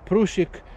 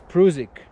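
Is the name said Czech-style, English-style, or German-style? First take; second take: Czech-style; German-style. First: The name is pronounced in a Czech way. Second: The name is pronounced in a German way. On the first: "if it's a Czech name, so it surely would be Prusik" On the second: "but in German spelling, it's Prusik"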